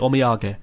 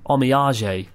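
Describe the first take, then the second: First: The word is said with Japanese sounds. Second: The word is said with French-like sounds. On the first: The speaker calls it right. "In Japanese, you say omiyage" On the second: The speaker calls it wrong. "The worst mispronunciation I've ever heard"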